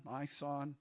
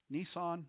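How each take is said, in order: First: Nisan said as "nigh-SAHN"; trying out pronunciation. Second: Nisan said as "nee-SAHN"; trying out pronunciation. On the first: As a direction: say Nisan with a long "eye" sound first, "nigh-SAHN". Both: Shown as a demonstration. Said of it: "what syllable to put the emphasis on".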